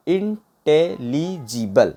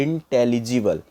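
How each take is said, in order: First: intelligible very slow, each syllable set apart; broken into syllables. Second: Said in the usual way. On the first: Shown as a demonstration. Teacher showing how to break words, intelligible syllable by syllable. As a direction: say intelligible one syllable at a time. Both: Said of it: "break करके भी पढ़ सकते हैं".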